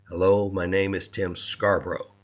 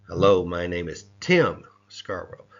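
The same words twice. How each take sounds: First: The stress is on "Scarborough". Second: The stress is on "Tim".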